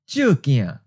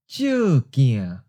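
First: The phrase is said at normal conversational speed. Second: The phrase is said slowly and deliberately. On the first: "First natural speed" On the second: "and then slowly"

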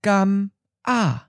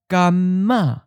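First: The syllables are separated with the M closing the first. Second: The M carries over to start the second syllable. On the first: The speaker calls it wrong. "It's actually a bit difficult to pronounce it, to say it like this" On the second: The speaker calls it right. "we take the M ending of gam and start the next syllable with it"

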